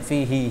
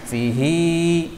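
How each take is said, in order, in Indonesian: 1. Vokal akhirnya diucapkan pendek. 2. Vokal akhirnya diucapkan panjang. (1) "hi-nya pendek" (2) "dibaca panjang"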